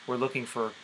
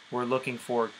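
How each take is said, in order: Both takes have the same delivery.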